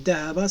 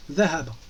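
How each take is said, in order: First: Dhahaba said with a plain French d, no tongue out; plain d instead of dha. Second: Dhahaba begun with tongue between teeth, th-like; correct dha sound. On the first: Teacher showing the acceptable simpler d for dhahaba. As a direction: say dhahaba with an ordinary d sound. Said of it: "c'est pas grave". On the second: Teacher modelling the correct Arabic dha in dhahaba. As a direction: say Dhahaba with a voiced th at the start. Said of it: "il faut faire sortir la langue". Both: Shown as a demonstration.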